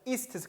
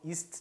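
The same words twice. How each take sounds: First: The word is said with strong emphasis. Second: The word is said lightly, passed over quickly. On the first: It is the verb meaning to eat. "이쪽에 있는 거는 ist 강조해서 말하고" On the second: It is the verb meaning to be. "저쪽은 ist 정도로 그냥 넘어가는"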